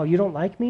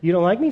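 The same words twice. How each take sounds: First: It sounds pleading and eager to please. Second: It sounds angry and dismissive.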